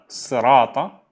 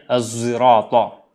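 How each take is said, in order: First: The word starts with an emphatic, heavy s sound. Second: The word starts with a voiced z sound. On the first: "kadang dibaca dengan sad" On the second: "dan kadang dibaca dengan zai"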